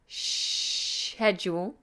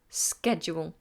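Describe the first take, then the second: First: It is said with a British pronunciation. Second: It is said with an American pronunciation. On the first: "British English pronounce it schedule" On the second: "American English is sk, schedule"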